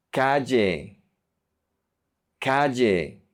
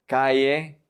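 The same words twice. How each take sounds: First: Calle with a hard j, "ka-je"; j sound. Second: Calle with a soft y, "ka-ye". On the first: Teacher modelling Colombian calle for learners, hard j sound. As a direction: say the ll in calle like English j. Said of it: "focus on the j sound". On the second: Teacher showing the softer option, calle with soft ll. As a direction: say the ll in calle like y in yes. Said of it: "do the soft one". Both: Shown as a demonstration.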